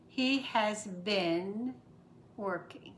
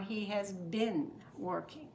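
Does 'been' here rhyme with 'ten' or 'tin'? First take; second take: ten; tin. First: The vowel in 'been' is a short e. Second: The vowel in 'been' is a short i. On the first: "E, which is eh" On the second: "short I, which is it"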